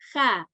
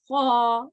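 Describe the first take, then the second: First: The sound is light, with spread lips. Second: The sound is heavy, with rounded lips. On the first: The speaker calls it wrong. "instead of saying kha" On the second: The speaker calls it right. "You make the mouth rounder and say kha"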